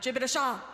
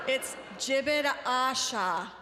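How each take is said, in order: First: The first syllable of Asha is left unstressed. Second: The first syllable of Asha carries the stress. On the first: The speaker calls it wrong. "not Jibit Asha" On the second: The speaker calls it right. "The emphasis of the ah is on the first syllable of Asha"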